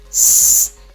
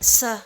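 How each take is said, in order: First: The consonant is said alone with no vowel. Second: The consonant is followed by an added uh. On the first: The speaker calls it right. "Just pronounce them as pure sounds" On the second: The speaker calls it wrong.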